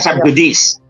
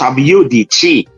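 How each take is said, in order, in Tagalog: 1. Ang j ay tunog English j, ang c ay tunog s. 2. Ang j ay tunog y, ang c ay tunog ch. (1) "hindi yan subjudice" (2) "J in Latin is pronounced Y. And mm. when C is in between two vowels, it's chi. So it's pronounced subjudice"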